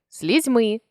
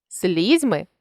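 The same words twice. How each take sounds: First: Слізьми with final МИ stressed; stress on last syllable. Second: Слізьми with СЛІЗЬ stressed; stress on first syllable. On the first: Teacher shows a stress variant, слізьми stressed on МИ. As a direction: land on МИ ending слізьми. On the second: Teacher shows a stress variant, слізьми stressed on СЛІЗЬ. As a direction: lean on the opening СЛІЗЬ of слізьми. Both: Shown as a demonstration. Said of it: "наголосивши той чи інший склад".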